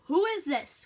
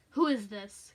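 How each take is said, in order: First: Loud, higher irritated demand; irritable phone caller, raised voice; more irritable. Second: Loud, curt demand; lightly voiced menacing caller; demanding male caller. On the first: Acted. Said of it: "more irritably this time". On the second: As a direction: put weight on the first word, demanding. Gruff stranger on phone, story.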